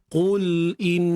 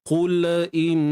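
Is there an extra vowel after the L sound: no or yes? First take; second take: no; yes. First: The L is held with no added vowel. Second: An extra vowel sound follows the L. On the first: The speaker calls it right. "pegang makhraj lam" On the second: The speaker calls it wrong. "Yang tak tepat macam mana?"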